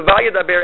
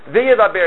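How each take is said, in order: First: "Vayidaber" begun with an open "va" sound; pronounced with VA. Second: "V'yidaber" begun with a "ve" sound, pitched higher; pronounced with VE. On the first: Teacher showing the correct past form, prefix pronounced va. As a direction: say "Vayidaber" with "va", not "ve". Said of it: "as opposed to Vayidaber". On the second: Teacher showing a reader's mistake, prefix pronounced ve. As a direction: say "V'yidaber" with "ve", not "va". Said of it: "he pronounces it ve". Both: Shown as a demonstration.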